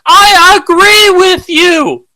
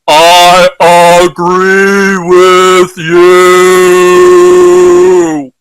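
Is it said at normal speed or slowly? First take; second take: normal speed; slowly. First: It is said at normal speed. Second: It is said slowly and deliberately.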